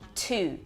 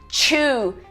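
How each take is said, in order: First: The word starts with an aspirated t sound. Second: The word starts with a ch sound. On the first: The speaker calls it right. "Mas é one, two" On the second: The speaker calls it wrong. "Muita gente vai falar"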